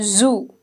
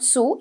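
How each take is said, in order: First: The word begins with a buzzing Z sound. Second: The word begins with a hissing S sound. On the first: The speaker calls it right. "it's z, zoo" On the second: The speaker calls it wrong. "it's not su"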